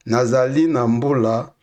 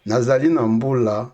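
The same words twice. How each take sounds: The two takes are said the same way.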